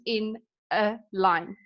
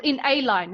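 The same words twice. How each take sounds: First: Said in the usual way. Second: "a" stressed as a full "ay". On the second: Shown as a demonstration. Teacher clarifying alliteration to students, stress on "a". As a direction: lean on "a" to mean just one. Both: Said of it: "Not in two lines, in one line".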